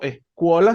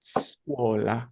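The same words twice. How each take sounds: First: "escuola" with an added e before the s; wrong Spanish-style onset. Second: "scuola" slowly, opening straight on a hissed s; no e before the s in "scuola", just the hiss; hissed initial S. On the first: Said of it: "en este caso, escuola, sino scuola". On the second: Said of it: "un siseo al principio de la palabra". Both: Shown as a demonstration.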